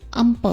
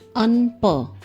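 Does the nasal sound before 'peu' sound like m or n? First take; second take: m; n. First: An m sound comes before peu. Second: An n sound comes before peu. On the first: The speaker calls it right. "It is um peu with mer sound" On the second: The speaker calls it wrong. "Here we don't pronounce un peu"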